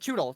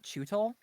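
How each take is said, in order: First: The middle consonant sounds like a d. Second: The middle consonant sounds like a t. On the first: The speaker calls it wrong. "You saying it wrong" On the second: The speaker calls it right. "you got it right then"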